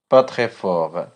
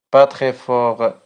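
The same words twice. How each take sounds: The two takes are said the same way.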